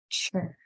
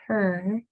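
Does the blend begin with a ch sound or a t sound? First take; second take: ch sound; t sound. First: The blend begins with a ch sound. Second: The blend begins with a clear t sound. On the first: The speaker calls it wrong. "not a chur. Try to get the ch off of there" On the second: The speaker calls it right. "It's intended as a ter"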